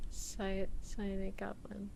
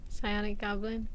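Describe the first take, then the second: First: Whispered "psionic goblin". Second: Said in the usual way. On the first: Shown as a demonstration. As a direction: breathe it to yourself.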